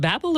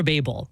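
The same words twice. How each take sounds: First: "Babel" with a short a, BAB-el. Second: "Babel" with a long a, BAY-bel. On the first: Host checking a word with the priest, short-a Babel. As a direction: say "Babel" to rhyme with babble. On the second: Host offering the priest the alternative, long-a Babel. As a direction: say "Babel" to rhyme with table. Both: Shown as a demonstration. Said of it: "Is it Babel or Babel?".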